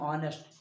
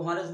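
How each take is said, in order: First: The word begins with a vowel, no h. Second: The word begins with an h sound. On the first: The speaker calls it right. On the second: The speaker calls it wrong. "वो हॉनेस्ट नहीं"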